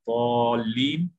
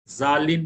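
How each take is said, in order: First: The word starts with an emphatic 'd' sound. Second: The word starts with a 'z' sound. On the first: The speaker calls it right. "वाद को अदा करने का तरीका गौर से देखिए" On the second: The speaker calls it wrong. "जालिन मत बोलिए"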